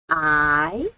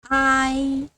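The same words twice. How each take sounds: First: It is said with the second tone. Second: It is said with the first tone. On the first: "Second tone" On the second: "First tone"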